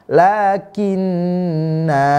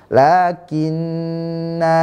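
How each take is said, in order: First: The final vowel is held long before a stop. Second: The final vowel is held long before a stop.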